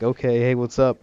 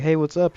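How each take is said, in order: First: Said in the usual way. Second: Imitating a bubbly greeting, pitched higher; cheerful hello from the neighbour; real happy greeting. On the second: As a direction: chirp it out like she's glad to see you. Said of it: "She's real happy at first".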